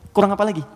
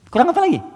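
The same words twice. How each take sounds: First: Said in the usual way. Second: "Kurang apa lagi?" thrown up high and pressing; higher emphatic repeat. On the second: Shown as a demonstration. Preacher pressing the stubborn unbelievers, high and exasperated. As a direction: repeat it, pitch leaping up in exasperation.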